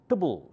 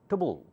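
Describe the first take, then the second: No difference in how they are said.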